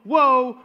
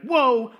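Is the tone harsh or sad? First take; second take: harsh; harsh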